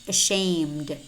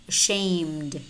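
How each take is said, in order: The two takes are said the same way.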